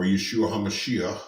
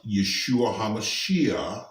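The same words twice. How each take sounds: First: Yeshua HaMashiach with a K or CH sound on the end; regional Hebrew pronunciation. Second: Yeshua HaMashiach said the Hebrew way, with an open ending; Hebrew pronunciation. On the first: Preacher showing how locals say Jesus's name, regional Hebrew pronunciation. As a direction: end "HaMashiach" on a back-of-the-throat CH. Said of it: "People from that area usually say it kinda like that". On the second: Preacher teaching the Hebrew name of Jesus, Hebrew pronunciation. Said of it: "his name in Hebrew is pronounced". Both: Shown as a demonstration.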